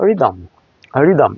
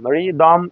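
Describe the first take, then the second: First: রিদম short and falling, second vowel reduced before M; unpressed rhythm. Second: রিদম as slow ri-dom, both syllables pressed; pressed, full-vowel rhythm. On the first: English teacher models rhythm without pressure, reduced ending. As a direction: let রিদম drop lightly onto the M. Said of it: "pressure দিয়ে না বলে আমরা বলতে". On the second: English teacher shows pressure not to use, full-vowel rhythm. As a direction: lean on both halves of রিদম. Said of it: "এভাবে pressure দিয়ে না বলে". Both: Shown as a demonstration.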